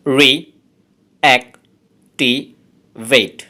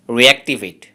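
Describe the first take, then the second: First: reactivate broken into slow, separate syllables; teacher dividing reactivate into syllables. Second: Said in the usual way. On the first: Shown as a demonstration. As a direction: spell out reactivate one syllable at a time. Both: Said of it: "এই ওয়ার্ডটাতে আছে চারটি syllable".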